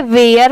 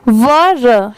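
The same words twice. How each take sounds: First: वेयर said like where; the common wrong वेयर reading of were; wrong pronunciation. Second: वर said short, like wur; the right वर reading of were; correct pronunciation. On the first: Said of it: "बहुत सारे लोग इसे गलत pronounce करते हैं". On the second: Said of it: "इसकी pronunciation है वर". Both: Shown as a demonstration.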